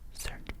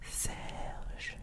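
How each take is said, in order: First: The name is pronounced with English sounds. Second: The name is pronounced with French sounds. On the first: "In English, it's Serge" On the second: "In French, it's Serge"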